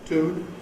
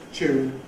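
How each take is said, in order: First: It starts with plain t, no y sound. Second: It starts with a ch sound. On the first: "Either you lose the yod, so tune" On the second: "coalesce the yod with the t to get an African ch"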